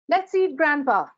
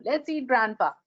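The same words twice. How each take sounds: First: Let's eat, pause, then Grandpa called out; with a comma. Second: "Let's eat Grandpa" run together, no pause; no comma. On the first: "Let's eat, Grandpa" to grandpa as a call to dinner. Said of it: "and the sentences in". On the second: Cannibal version of the grandpa line, run together. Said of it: "Again from Cannibal Town". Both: Shown as a demonstration.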